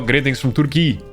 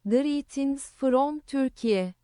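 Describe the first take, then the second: First: It is read in his normal voice. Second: It is read in a put-on Turkish accent.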